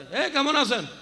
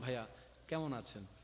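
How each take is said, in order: First: It is asked rudely, picking a fight. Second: It is asked warmly, with a smile.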